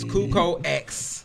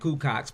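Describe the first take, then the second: First: The X is said as a separate letter. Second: The X is blended into one word. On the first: The speaker calls it right. "It's Cuco X" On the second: The speaker calls it wrong. "that's not how you pronounce it"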